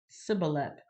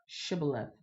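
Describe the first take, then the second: First: The word begins with a plain s sound. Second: The word begins with an sh sound. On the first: The speaker is from Ephraim. The speaker calls it wrong. "They could only say s" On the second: The speaker is not from Ephraim. The speaker calls it right. "They couldn't say sh"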